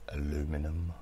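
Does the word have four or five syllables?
four. The word is said with four syllables. "the way English and Americans pronounce specific words"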